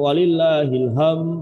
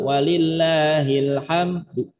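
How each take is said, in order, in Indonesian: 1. Bunyi d di akhir tidak diucapkan. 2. Terdengar vokal samar setelah d. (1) "Nah ini bermasalah ini" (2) "Atau dengan cara raum"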